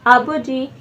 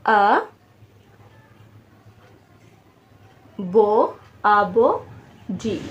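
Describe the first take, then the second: First: Said in the usual way. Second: आ, बो, जी with long writing pauses; syllable by syllable. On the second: Shown as a demonstration. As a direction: dictate आबो जी one drawn-out syllable at a time. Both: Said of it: "तीन syllable बन रहे हैं".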